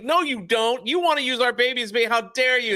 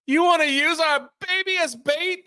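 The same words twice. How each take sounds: First: Higher, faster indignant accusation; mother accusing her husband; outraged mom. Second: Much higher, outraged question; mother appalled by the plan; outraged mom. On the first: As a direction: hurl it at your husband. Mom continues the argument. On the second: Mom voiced in an argument. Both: Retold or imitated.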